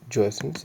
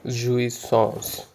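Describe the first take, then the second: First: It sounds like the English words joy and essence. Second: It is said with a French-style pronunciation. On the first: The speaker calls it wrong. "it's not called joyessence, it's called something different" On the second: The speaker calls it right. "this is how it uh, you pronounce it"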